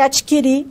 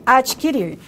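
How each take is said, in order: First: The final r sound is dropped. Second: The final r sound is pronounced. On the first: "elisão do R" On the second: "em vez de"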